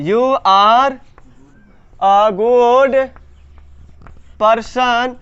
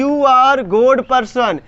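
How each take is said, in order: First: Word by word, long pauses between; slow dictation. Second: Said in the usual way. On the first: Shown as a demonstration. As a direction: draw out each word as if writing it. Dictates the sentence while writing.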